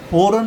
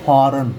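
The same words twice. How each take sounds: First: फ़ौरन with a round "o", phoran; wrong pronunciation. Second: फॉरेन with open "aa", phaaran; corrected pronunciation. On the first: Teacher shows students what not to say, wrong pronunciation. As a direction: round the first vowel of फ़ौरन to "pho". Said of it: "इसको हम फ़ौरन नहीं बोलेंगे". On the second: Teacher gives students the right form, corrected pronunciation. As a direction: open the first vowel of फॉरेन to "phaa". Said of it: "इसको हम बोलेंगे". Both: Shown as a demonstration.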